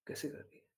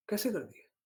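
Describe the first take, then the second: First: Whisper. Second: Said in the usual way. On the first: Shown as a demonstration. Rhetorical question repeated, whispered.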